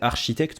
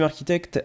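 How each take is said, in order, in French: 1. Le mot se prononce à la française. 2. Le mot se prononce à l'anglaise. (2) "je sais pas pourquoi je le prononce en, en anglais"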